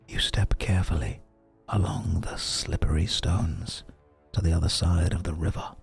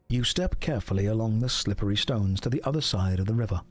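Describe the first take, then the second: First: It is whispered close to the microphone. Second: It is spoken in a normal full voice.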